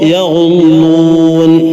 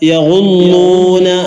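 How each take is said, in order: First: The word ends on the consonant n. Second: The word ends with a short final vowel.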